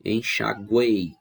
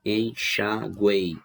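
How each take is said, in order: First: Said in the usual way. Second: "enxaguei" slowly divided into its syllables. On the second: Shown as a demonstration. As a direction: separate each syllable of "enxaguei", keeping "guei" together. ("enxaguei" sílaba por sílaba, pausadamente) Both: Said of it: "fazer a separação silábica".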